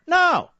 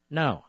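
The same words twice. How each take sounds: First: High, explosive no; emphatic refusal. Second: Low, soft no; hushed, lowered voice after the outburst; subdued refusal. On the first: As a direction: burst out with a sharply raised, falling refusal. Refusing to talk calmly, passionate outburst. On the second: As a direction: drop to a quiet, final refusal. Same refusal repeated after long pause. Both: Real, not acted.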